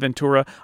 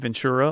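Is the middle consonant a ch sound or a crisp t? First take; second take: t; ch. First: The t is pronounced as a crisp t. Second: The t sounds like a ch sound. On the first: This is the careful precise way of saying it. "instead of Ventura ... Do I need to pop that T" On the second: This is the relaxed everyday way of saying it. "I would do the ch sound. ... almost like it's V-E-N-C-H-U-R-A"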